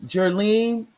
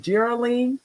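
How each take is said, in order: First: "Jerlene" said in two syllables, jur-LEEN; "Jerlene" run together as jur-leen; two-syllable name. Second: "Geraldine" said with no d, as JER-a-leen; "Geraldine" with an added middle vowel, jer-uh-leen; tentative three-syllable name. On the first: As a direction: say "Jerlene" with no middle vowel. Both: Real, not acted. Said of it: "I hope I said it right".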